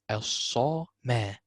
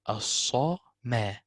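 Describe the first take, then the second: Both takes have the same delivery.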